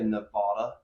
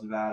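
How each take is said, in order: First: It is said the way outsiders say it. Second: It is said the way locals say it. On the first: The speaker is not from the area. The speaker calls it wrong. "it's like when people say" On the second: The speaker is from the area. The speaker calls it right. "no, it's"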